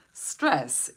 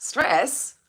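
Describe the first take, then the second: First: Stress. stated with a falling, settled answer tune; flat answer. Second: Stress? asked with a high rising question tune, a little louder. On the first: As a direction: drop Stress. down as the plain answer. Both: Shown as a demonstration. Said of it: "What are we gonna feel?".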